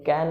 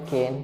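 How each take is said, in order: First: The vowel is short, like in 'can'. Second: The vowel is long, like in 'cane'. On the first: The speaker calls it wrong. "नहीं" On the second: The speaker calls it right. "कैन नहीं केन"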